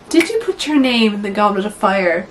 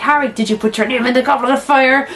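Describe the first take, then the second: First: The question is asked in a calm voice. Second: The question is asked in a forceful, agitated voice.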